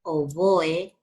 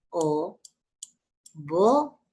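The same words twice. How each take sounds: First: Said in the usual way. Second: "oboe" slowly as o, bo, e; syllable by syllable. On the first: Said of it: "que se llama así". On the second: Shown as a demonstration. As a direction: clear pauses inside "oboe": o... bo... e. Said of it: "en sílabas diferentes".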